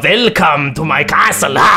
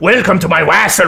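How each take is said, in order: First: It is said in a spooky Transylvanian accent. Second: It is said in a plain, unspooky accent. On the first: It sounds scary. The speaker calls it right. "ordet ska ju låta liksom transylvaniskt" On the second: It does not sound scary. The speaker calls it wrong. "Det är inget läskigt liksom"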